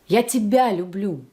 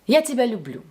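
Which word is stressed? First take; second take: тебя; люблю. First: The middle word carries the main stress. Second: Neutral stress falls on the last word. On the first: The love is for this person and no one else. "I love you and only you" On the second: A plain, neutral declaration of love. "This sounds calm and natural, and in Russian we usually lower our voice on the last stressed word"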